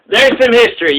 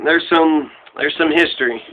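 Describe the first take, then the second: First: "There's some history" stated firmly at full voice; firm restatement. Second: Low, soft, subdued wrap-up; quiet aside. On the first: Podcaster restating "There's some history" to listeners, firm restatement. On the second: Podcaster winding up his history recap, quiet aside. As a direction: let it drop low and soft. Trails off, then restates it. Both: Real, not acted.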